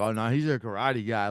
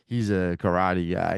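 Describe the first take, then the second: First: It sounds serious and impressed. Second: It sounds dismissive and unimpressed.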